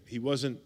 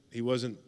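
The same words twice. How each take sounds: The two takes are said the same way.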